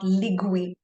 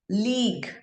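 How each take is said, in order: First: The u is sounded after the g. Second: The u is silent after the g. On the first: The speaker calls it wrong. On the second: The speaker calls it right.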